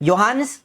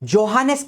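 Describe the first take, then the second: First: The name begins with a Y sound. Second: The name begins with a J sound. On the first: "लेकिन उसका प्रोनाउंसिएशन होता है योहानेस" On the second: "वैसे जे है स्टार्टिंग में"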